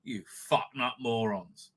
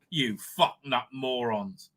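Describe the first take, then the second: First: Low, slow, softer insult; slow quiet contemptuous insult. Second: Low, slow, spat-out insult; slow contemptuous insult. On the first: Repeating the insult to the producers, slower and softer. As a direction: drag it out with quiet scorn. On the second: Scolding the producers, a slow low contemptuous insult. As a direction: drag out the contempt on each word. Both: Real, not acted.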